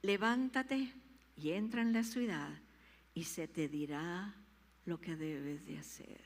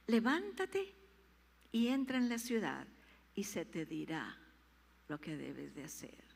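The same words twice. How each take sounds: First: Mild authoritative command; the Lord commanding. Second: Stronger command. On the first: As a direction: rouse him gently. (el Señor ordena con suavidad) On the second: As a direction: rouse him firmly. (el Señor ordena con fuerza) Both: Acted. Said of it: "el Señor le dijo".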